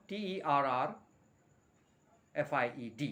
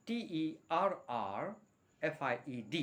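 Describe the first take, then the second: No difference in how they are said.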